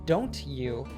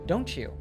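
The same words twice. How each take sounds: First: The t and y sounds stay separate. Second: The t and y sounds merge into ch. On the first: "he did not say" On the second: "he said; we often pronounce it like ch"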